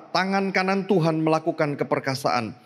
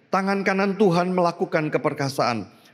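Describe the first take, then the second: The two takes are said the same way.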